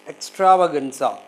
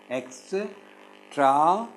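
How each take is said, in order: First: Said in the usual way. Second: Very slow "extravaganza" with long gaps between syllables; "extravaganza" in five isolated, drawn-out pieces. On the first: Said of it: "Can you syllabify these words?". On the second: Shown as a demonstration. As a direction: break "extravaganza" into ex, tra, va, gan, za. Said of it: "five syllables".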